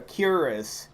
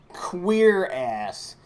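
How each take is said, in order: First: It is said the usual modern way. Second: It sounds like the words 'queer ass'. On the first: This is the popular modern pronunciation. "popularly called a cuirass" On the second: This is the historical pronunciation. "the actual historical pronunciation"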